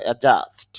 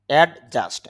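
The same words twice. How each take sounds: First: অ্যাডজাস্ট said as "a-just", no d sound; silent D. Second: অ্যাডজাস্ট with an audible d before the j; D pronounced. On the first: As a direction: drop the ড before the j in অ্যাডজাস্ট. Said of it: "এখানে ডি এর উচ্চারণ হবে না". (অ্যাডজাস্ট-এ ড উহ্য, "অ্যাজাস্ট") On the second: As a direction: sound out the ড in অ্যাডজাস্ট. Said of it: "যদিও আমরা এখানে ডি এর উচ্চারণ করি". (অ্যাডজাস্ট-এ জ-এর আগে ড উচ্চারণ) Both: Shown as a demonstration.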